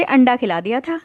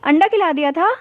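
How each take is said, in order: First: Said in the usual way. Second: "अंडा खिला दिया था" high, rising in disbelief; shocked echo question. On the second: A narrator's reading. ("अंडा खिला दिया था" हैरानी भरे सवाल की तरह)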